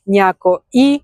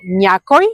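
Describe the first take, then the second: First: „някои“ with the pitch falling at the end. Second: „Някой“ with the pitch rising at the end. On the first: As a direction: let „някои“ drop at the end. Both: Shown as a demonstration. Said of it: "the intonation goes down for plural".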